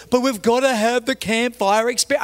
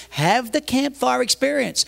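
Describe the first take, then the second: First: Higher-pitched, insistent plea; imitated whining objection; pleading protest. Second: Higher, drawn-out retort; retold impatient comeback; exasperated concession. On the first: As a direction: plead your case like a put-out volunteer. Ranger pleads in retold argument. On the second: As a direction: slowly throw the words back at them. Pastor answers in retold argument.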